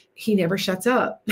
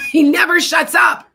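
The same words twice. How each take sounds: First: Said in the usual way. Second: Louder and higher, laughing through it; laughing exasperated shout. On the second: Real, not acted. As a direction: burst out laughing and yell it. Laughing repeat about the barking dog.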